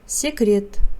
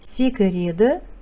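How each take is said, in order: First: The final vowel is dropped, ending on t. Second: The word ends with a full final vowel. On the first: This is how the word is actually read. "читается" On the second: This is how the word is written. "Пишется"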